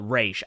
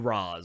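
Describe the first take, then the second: First: The name is said like "raish". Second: The name is said like "roz". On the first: "I'm old school, so I'm gonna say uh" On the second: "I don't do Roz because that's sounds weird"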